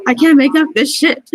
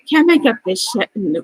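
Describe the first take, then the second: First: Tearful outburst. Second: Said in the usual way. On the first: Real, not acted. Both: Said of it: "I can't believe I'm gonna start crying".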